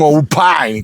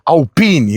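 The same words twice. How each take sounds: First: It is pronounced as the audio brand's name. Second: It is pronounced as the car line's name. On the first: It names the sound equipment brand. The speaker calls it wrong. "não Alpine, como você dizia, do som" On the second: It names the car line. The speaker calls it right. "essa linha Alpine"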